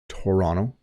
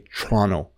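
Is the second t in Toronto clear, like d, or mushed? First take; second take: like d; mushed. First: The second t sounds like a d. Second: The word is squashed, the second t nearly gone. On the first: "the second T does have a D sound" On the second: "native Ontario English speakers really mush it down"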